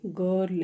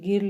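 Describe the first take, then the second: First: The vowel sounds like 'uh' as in 'but'. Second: The vowel sounds like 'ih' as in 'bit'. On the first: The speaker calls it right. "ये गर्ल है। यहाँ पे आई जो है वो अ की sound दे रहा है" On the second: The speaker calls it wrong. "ये गिर्ल नहीं है"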